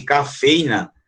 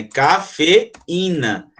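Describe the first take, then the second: First: "cafeína" said as "ca-fei-na", with "ei" as a diphthong; wrong "cafeína", with the E and I joined in one syllable; without accent. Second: "cafeína" very slow, ca-fe-í-na, with í separated; correct slow syllables. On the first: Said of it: "se ele não tivesse vogal". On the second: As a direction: spell out "cafeína" correctly, with a stressed í. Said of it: "Mas não é cafeína". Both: Shown as a demonstration.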